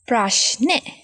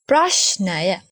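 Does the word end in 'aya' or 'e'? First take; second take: e; aya. First: The word ends with a short 'e' sound. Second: The word ends with a full 'aya' syllable. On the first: This is the everyday spoken form. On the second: This is the full dictionary form.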